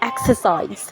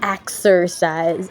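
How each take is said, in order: First: It is said in a British accent. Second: It is said in an American accent. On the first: "but in British accent, it's exercise. We don't pronounce the R" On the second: "in American accent"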